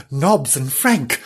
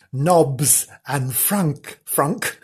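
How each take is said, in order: First: Said in the usual way. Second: "Frank" said as "Frunk"; slowly read, "Frank" coming out as "Frunk"; Frank mispronounced. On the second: Real, not acted. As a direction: slip on "Frank", the vowel turned to "uh". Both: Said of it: "Try that again".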